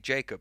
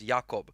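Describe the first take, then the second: First: The name is said the English way. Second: The name is said the Polish way. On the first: This is how it is said in the UK and US. "from the U K and from the U S, and they'll say Jacob" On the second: This is how it is said in Poland. "I have a friend from Poland. He says Jakob"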